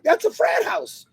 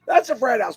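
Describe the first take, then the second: First: High, amused call-out of the frat house; excited exclaiming. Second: Said in the usual way. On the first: Retold or imitated. Driving past the college, pointing out a frat house, high and excited. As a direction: point it out with a gleeful lift. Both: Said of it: "And I'm like".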